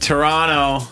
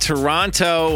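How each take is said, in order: First: The second t sound is dropped. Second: The second t sound is clearly pronounced. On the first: The speaker calls it right. "There you go" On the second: The speaker calls it wrong. "You're not supposed to pronounce the T"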